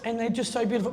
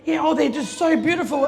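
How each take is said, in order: First: Tender. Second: Bright, louder, higher gush; mock-proud gushing over the babies; showing off the twins, gushing. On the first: Retold or imitated. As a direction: linger over it lovingly. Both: Proud mum gushing about twins.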